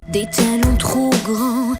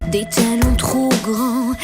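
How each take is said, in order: No difference in how they are said.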